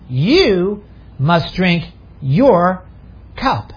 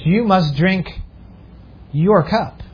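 First: The word "You" carries the main stress. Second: The word "your" carries the main stress. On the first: This person, not someone else, must drink it. "Maybe I should say it this way" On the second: The cup belongs to this person and no one else. "I emphasize your cup"

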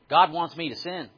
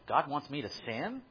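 First: It is said as a flat statement. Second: It is said as a questioning query. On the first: It asserts that God wants sin. "I'll say it as a statement" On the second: It asks whether God wants sin. "As a question"

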